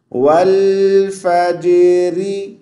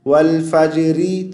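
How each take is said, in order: First: वल फजरी with the लाम held long and very slow; correct recitation. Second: वल फजरी with the लाम cut short and bounced; wrong recitation. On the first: Teacher showing viewers the correct वल फजरी. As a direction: stretch the लाम in वल, smooth and unbroken. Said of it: "लाम को साकिन की हालत में खींचेंगे, लंबा करेंगे". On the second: Teacher showing viewers the common mistake in वल फजरी. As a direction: clip the लाम in वल and jolt it. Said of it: "यू नहीं पढ़ना". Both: Shown as a demonstration.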